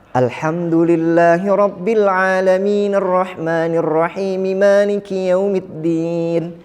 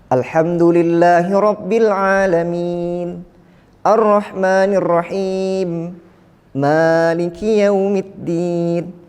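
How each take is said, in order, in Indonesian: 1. Frasa-frasanya menyambung tanpa jeda. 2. Jeda untuk bernapas memisahkan setiap frasa. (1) "disambung di ujung-ujung kalimat itu harus dihidupkan" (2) "diputus-putus di antara uh, kalimat-kalimat itu ada pernapasan"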